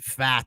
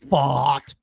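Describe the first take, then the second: First: The vowel is a flat 'a', as in 'fat'. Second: The vowel is an open 'ah', as in 'father'. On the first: "It should be fat" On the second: "It's like fart with a with a lazy Boston R"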